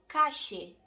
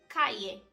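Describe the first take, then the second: First: It is said in an Argentine Spanish accent. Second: It is said in a Castilian Spanish accent. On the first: "Na Argentina, eles pronunciam calle" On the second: "no espanhol castelhano, eles dizem calle"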